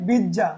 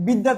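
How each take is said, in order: First: বিদ্যা with a double j, bijja; mutual assimilation. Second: Said in the usual way. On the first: Shown as a demonstration. Teacher giving an example of assimilation, বিদ্যা said bijja. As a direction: turn the dd of বিদ্যা into jj. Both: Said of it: "অন্যান্য সমীভবন।".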